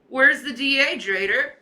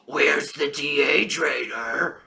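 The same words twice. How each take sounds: First: It is said in his own normal voice. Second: It is said in a creepy imitating voice.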